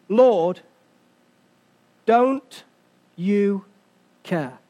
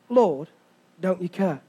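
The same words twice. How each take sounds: First: "Lord, don't you care" broken up by long pauses; word-by-word quotation. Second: "Lord, don't you care" low and soft, joined up; quiet repeat. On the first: Preacher quoting the disciples' exact language, "don't you care" word by word. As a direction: set each word of "don't you care" apart, dropping low on "care". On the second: Preacher letting the disciples' words sink in, "don't you care" quiet and low. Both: Shown as a demonstration. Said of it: "Their exact langu-, wa-, language is this".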